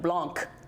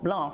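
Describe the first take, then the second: First: The word ends with a hard K sound. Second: The word ends with no K sound. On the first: The speaker calls it wrong. "no hard C, no Blanc" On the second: The speaker calls it right. "Blanc without a C"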